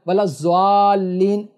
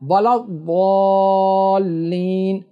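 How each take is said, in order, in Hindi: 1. आख़िरी शब्द z की आवाज़ से शुरू होता है। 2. आख़िरी शब्द emphatic d की आवाज़ से शुरू होता है। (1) "ये भी नहीं पढ़ना है" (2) "क्या पढ़ना है"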